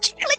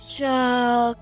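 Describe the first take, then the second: First: The word is said quickly. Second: The word is said slowly and stretched.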